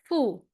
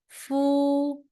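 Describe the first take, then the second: First: The pitch falls sharply from high to low. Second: The pitch stays high and level. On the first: "Last one" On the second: "the first tone"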